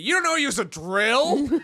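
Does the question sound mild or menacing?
menacing. The question sounds nasty and menacing. The retelling makes him seem like a horrible monster. "Red turns it into"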